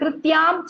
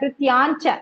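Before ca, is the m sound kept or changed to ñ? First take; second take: kept; changed. First: The m is kept before ca. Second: The m changes to ñ before ca. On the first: The speaker calls it wrong. "நீங்க கிருத்யாம் ச சொல்றீங்கல்ல" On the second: The speaker calls it right. "அனுஸ்வாரா rule"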